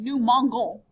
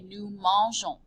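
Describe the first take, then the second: First: The g is a hard g sound. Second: The g is a soft zh sound. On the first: The speaker calls it wrong. "which just does not sound right at all" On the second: The speaker calls it right. "we add the E and we say"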